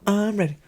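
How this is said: It is said in an exaggerated cartoon-character voice.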